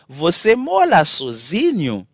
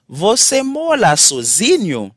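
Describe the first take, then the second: No difference in how they are said.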